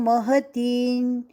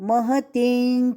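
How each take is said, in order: Both takes have the same delivery.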